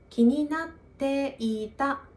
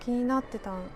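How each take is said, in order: First: The i sound before ta is pronounced. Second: The i sound before ta is dropped.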